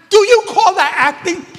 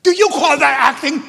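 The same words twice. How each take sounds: First: Even louder, much higher scornful repeat; imitating the director, scolding harder. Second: Loud, high, scornful challenge; mock the director berating an actress; imitating the director's scolding. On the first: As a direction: push the mockery up a notch, nearly yelling. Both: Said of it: "and he looks at her and says".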